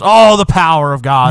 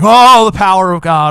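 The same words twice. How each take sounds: First: It is said reluctantly and flatly. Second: It is said with excited enthusiasm.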